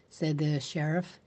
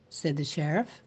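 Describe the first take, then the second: No difference in how they are said.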